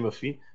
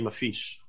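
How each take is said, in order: First: The word ends in a vowel, without 'sh'. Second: The word ends with an added 'sh' sound. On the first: This is the form used in Saudi Arabia and the Levant. "it's more in like in Saudi Arabia, they say mafi" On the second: This is the form used in Egypt. "but in Egypt we say mafish"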